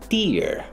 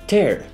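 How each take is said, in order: First: The word rhymes with 'ear'. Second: The word rhymes with 'air'. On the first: A drop from crying. "when someone cries" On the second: To rip something apart. "to put things apart"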